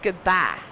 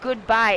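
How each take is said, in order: First: The vowel in bye is one flat sound. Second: The vowel in bye glides toward ee. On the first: The speaker calls it right. "it's goodbye" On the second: The speaker calls it wrong. "It's not goodbye"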